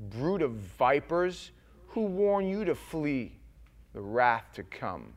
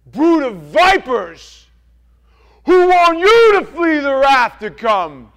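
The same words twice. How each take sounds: First: Slow, measured prophet's rebuke; John the Baptist rebuke. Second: Much higher, much louder, very slow roar; furious prophet's roar. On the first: Preacher reading John's words to Pharisees, stern. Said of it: "he said to them". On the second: John the Baptist roaring at the Pharisees and Sadducees. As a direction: bellow it at them like John the Baptist. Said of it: "and he goes". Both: Acted.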